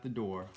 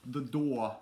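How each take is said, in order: First: Said in the usual way. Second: Louder, higher British-accented "door". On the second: Shown as a demonstration. Repeats word trying British accent.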